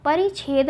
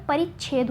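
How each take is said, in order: First: परिच्छेद without holding the chh; light single chh in परिच्छेद; wrong single consonant. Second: परिच्छेद with a held ch before chh; correct doubled consonant. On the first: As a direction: say परिच्छेद as pari-chhed. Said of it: "परिच्छेद नहीं होता". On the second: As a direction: say परिच्छेद as parich-chhed. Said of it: "परिच्छेद होता है". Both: Shown as a demonstration.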